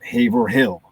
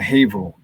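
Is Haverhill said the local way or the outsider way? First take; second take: outsider; local. First: The name is said the outsider way. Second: The name is said the local way. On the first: The speaker calls it wrong. "not Haverhill" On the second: The speaker calls it right. "I had to understand the pronunciation of"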